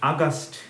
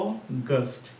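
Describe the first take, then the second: First: The first vowel is an open 'a' sound. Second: The first vowel is a rounded 'o' sound. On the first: The speaker calls it wrong. "It is not আগস্ট। আগস্ট বলে কোনো মাস নেই" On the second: The speaker calls it right. "বলবে কি অগস্ট।"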